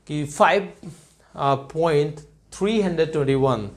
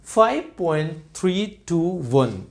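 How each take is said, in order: First: five point three hundred twenty one read as a whole number, the wrong way. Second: five point three टू one with each digit said separately, slow and careful; right way. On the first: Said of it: "हम ऐसा नहीं बोल सकते हैं।". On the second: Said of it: "हम इसको math में बोलेंगे". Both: Shown as a demonstration.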